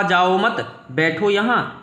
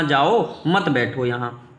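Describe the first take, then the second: First: "जाओ मत" as one unit, pause, then "बैठो यहाँ"; group जाओ with मत, then a gap before बैठो; pause after मत. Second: "जाओ", pause, then "मत बैठो यहाँ" as one unit; pause after जाओ. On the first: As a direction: break after मत, so it means don't go, sit here. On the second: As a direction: break after जाओ, so it means go, don't sit here. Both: Shown as a demonstration. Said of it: "बस comma का अंतर है".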